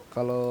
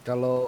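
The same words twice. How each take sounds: The two takes are said the same way.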